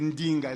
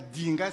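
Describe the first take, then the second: First: The word starts with a nasal nd sound. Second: The word starts with a plain d sound. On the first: The speaker calls it right. "c'est Ndinga. Le D est mouillé" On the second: The speaker calls it wrong. "c'est pas le D, c'est pas Dinga"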